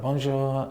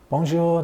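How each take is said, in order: First: Softer, moderately high bonjour; imitated shop staff's hello, lightly raised; retold bonjour reply. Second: High, sing-out bonjour; mock-cheery customer's hello, pitched well up; retold bonjour greeting. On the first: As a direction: answer the greeting more quietly. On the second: Retold greeting entering French shop.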